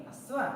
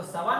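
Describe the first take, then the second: First: अस्वा with a clear initial a before the s; अस्वा pronounced the correct way, starting with a; correct reading. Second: सवा pronounced without the opening a sound; the students' mistaken सवा, said with emphasis; सवा read as the common mistake, no initial a; wrong reading. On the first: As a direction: say अस्वा, opening on a short a. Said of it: "सवा नहीं अस्वा". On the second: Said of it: "कुछ विद्यार्थी सवा पढ़ लेते हैं". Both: Shown as a demonstration.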